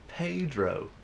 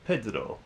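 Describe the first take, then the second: First: The name has an Americanized pronunciation. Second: The name has a non-American, original-language pronunciation. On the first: The speaker calls it wrong. "he would pronounce uh, the character's name as Pedro" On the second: The speaker calls it right. "instead of pronouncing it as Pedro"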